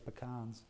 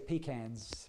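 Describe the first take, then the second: First: It is pronounced the Southern US way. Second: It is pronounced the English way.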